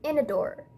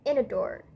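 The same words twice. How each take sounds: Both takes have the same delivery.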